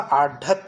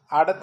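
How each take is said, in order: First: आढ़त said with an aspirated ढ़, slowly; teacher gives the right आढ़त with a breathy ढ़; slow demo of the correct आढ़त; correct form. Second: आड़त said with an unaspirated ड़; teacher voicing the mistaken आड़त without breathiness; wrong form. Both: Shown as a demonstration. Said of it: "ढ से ढपली".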